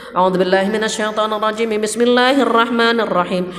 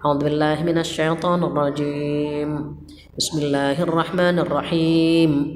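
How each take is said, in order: First: It is recited in a loud voice. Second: It is recited in a quiet voice.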